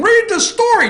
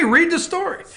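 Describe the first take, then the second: First: Much higher and louder whiny plea; mock whiny high voice. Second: Said in the usual way. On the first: To listeners yelling at him, squeaky mock plea. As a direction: beg them in a squeaky whine. Host answers imagined angry listener.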